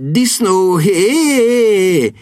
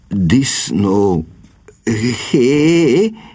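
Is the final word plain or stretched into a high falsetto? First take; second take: falsetto; plain. First: A short staccato first word, then a long falsetto ending. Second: Both words are said plainly, without staccato or falsetto. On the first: The speaker calls it right. "az első szót a rövid staccato, a végét pedig nyújtsa el és emelje falzettóba" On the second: The speaker calls it wrong. "nem jó a kiejtése"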